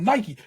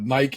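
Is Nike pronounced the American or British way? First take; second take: American; British. First: Nike is said with the American pronunciation. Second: Nike is said with the British pronunciation. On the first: "Americans like this shit is called Nike" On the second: "the Brits call it Nike"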